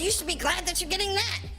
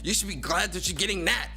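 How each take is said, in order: First: It is said in a put-on mocking voice. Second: It is said in his natural voice.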